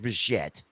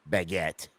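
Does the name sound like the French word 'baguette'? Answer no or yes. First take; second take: no; yes. First: The name does not sound like the bread word. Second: The name sounds like the French bread word. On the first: The speaker calls it right. "his name is Bichette" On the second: The speaker calls it wrong. "not Baguette"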